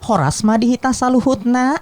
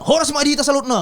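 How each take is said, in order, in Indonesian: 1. Diucapkan dengan logat Sunda. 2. Diucapkan dengan logat Batak. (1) "Kalau di Sunda" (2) "Itu Batak tuh Batak"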